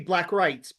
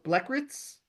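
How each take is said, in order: First: The second word has an 'eye' vowel sound. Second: The second word has a short 'ih' vowel sound. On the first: The speaker calls it wrong. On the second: The speaker calls it right.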